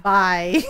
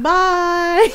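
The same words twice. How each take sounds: First: Low, curt-daughter imitation; annoyed goodbye. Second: High, loud sing-out farewell; teasing goodbye. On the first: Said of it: "she got annoyed with me". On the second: Retold or imitated. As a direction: playfully call it back to tease. Mom teasingly answers annoyed daughter's goodbye.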